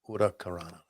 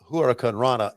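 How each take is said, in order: First: It is said as 'urakarana'. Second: It is said as 'huracan rana'. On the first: This is the way a native speaker says it. The speaker calls it right. "you pronounce it urakarana" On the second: This is the usual way people say it. The speaker calls it wrong. "we call it huracan rana"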